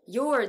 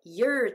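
First: "Your" with a full "or" vowel. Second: "your" weakened to "yer"; reduced YOUR. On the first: Teacher showing the form not used, "Your" with full vowel. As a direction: say "Your" carefully, like "yore". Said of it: "Yourではなくて". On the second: Teacher showing sound change, "your" reduced to "yer". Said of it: "yourと発音するので". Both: Shown as a demonstration.

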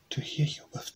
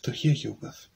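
First: Hushed sly wolf's reply; breathy disguised wolf; wolf as Granny. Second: The wolf's own voice slipping through; echoing wolf reply. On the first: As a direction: whisper it like a wolf hiding in Granny's bed. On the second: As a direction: let the beast show under the disguise. Wolf repeats, voice shifted. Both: Acted.

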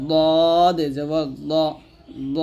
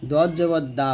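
First: Slow "দদ" with long, thick, rounded "দ"; heavy letter. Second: "দা" thin with open aa, like দাল; wrong thin letter. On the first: Teacher correcting learners' error, "দদ" slow and heavy. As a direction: press tongue side to molars, draw "দদ" out heavy. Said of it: "মোটা উচ্চারণ করতে হবে". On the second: Teacher showing learners the mistake, thin "দা". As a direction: flatten "দত" into a light "দা". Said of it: "এটা কিন্তু ভুল". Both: Shown as a demonstration.

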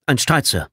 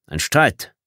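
First: "Ein Streit" stated with a falling end; higher-pitched military answer, falling after "Streit"; reporting statement. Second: "Ein Streit" lifted into a rising question; rising tune on "Streit"; questioning echo. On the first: Lieutenant reports to his commander. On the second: Commander echoes answer as question. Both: Acted.

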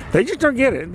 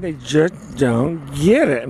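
First: High-pitched exasperation at usual volume; exasperated. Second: Slow, drawn-out exasperation; slow emphasis. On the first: Complaining about conservative neighbors, high exasperated voice. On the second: Driving home the complaint about neighbors, slowly emphatic. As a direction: stretch out DON'T GET IT word by word. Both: Real, not acted.

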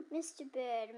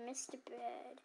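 First: Said in the usual way. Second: Softer, musing repeat of Mister Bird; quiet muse. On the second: Acted. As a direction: say Mister Bird softly to yourself. Clerk repeats it much softer.

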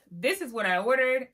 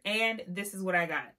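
First: Higher and louder, expectant build-up; hyped-up setup. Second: Said in the usual way. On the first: Acted. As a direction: sell the dream of the order. Ordered vs got meme contrast.

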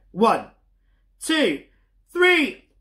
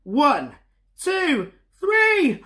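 First: Rising higher and louder up to three; building countdown. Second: Climbing much higher, ending in a loud shout; bigger building countdown. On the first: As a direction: count up to a big shout. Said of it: "as loud as you can". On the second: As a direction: ramp up to a super loud three. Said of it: "super duper loud". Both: Shown as a demonstration.

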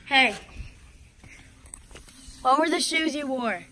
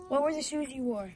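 First: Loud, slow call across the house; slow shout to someone far off. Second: Said in the usual way. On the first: Real, not acted. Calling to brother in house.

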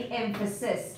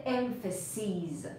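First: Emphasis with a short i in "-sis"; singular ending. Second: Emphases with a long "-seez" ending; plural long-ee ending. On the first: Teacher contrasting one with many for students, emphasis with short final vowel. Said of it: "که یه دونه است". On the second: Teacher contrasting many with one for students, emphases with long final vowel. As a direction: say emphases as "EM-fuh-seez", ee held. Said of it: "کافیه این آی رو تبدیل کنی به ای". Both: Shown as a demonstration.

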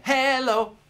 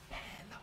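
First: Loud call. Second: Hello whispered, no voice; whispered echo. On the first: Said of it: "I'll sing 'em". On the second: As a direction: whisper Hello back softly. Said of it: "sing 'em back". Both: Shown as a demonstration.

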